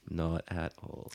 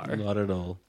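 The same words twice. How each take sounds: First: Lower, softer and slow; quiet deadpan. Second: Said in the usual way. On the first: Shown as a demonstration. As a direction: drop it low and drag it. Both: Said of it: "repeated Not at all".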